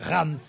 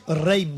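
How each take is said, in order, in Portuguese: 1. O nome é dito à francesa. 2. O nome é dito à portuguesa. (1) "Mas é Rams" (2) "Os portugueses dizem Reims"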